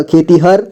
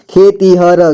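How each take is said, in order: First: Said in the usual way. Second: खेतीहर with final र sounded separately; syllable by syllable. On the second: Shown as a demonstration. Teacher breaking down खेतीहर for learners, syllable by syllable. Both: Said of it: "जोड़ जोड़ करके".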